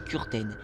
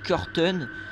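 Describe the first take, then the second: First: The name is said with a German-style pronunciation. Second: The name is said with a French-style pronunciation. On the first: "la vraie prononciation c'est Kurten" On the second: "vous pouvez dire Kurten"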